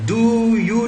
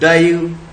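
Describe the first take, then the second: First: Both words are said fully with a clear vowel. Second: The words run together with a weakened first vowel. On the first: "डू यू नहीं बोलेंगे" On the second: "डायू ऐसा भी बोल सकते हैं"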